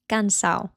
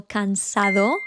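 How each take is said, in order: First: "cansao" with the d dropped, ending in -ao; slangy "cansao", swallow the d. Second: "cansado" with the final d clearly said; full final d. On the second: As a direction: say "cansado" carefully, d included. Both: Shown as a demonstration. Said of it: "don't say the D from the end of a word".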